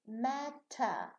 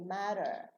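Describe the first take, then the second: First: The middle consonant is a clear T sound. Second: The middle consonant is a light D-like flap. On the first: "they don't say matter" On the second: "They say matter. As if here we have a D"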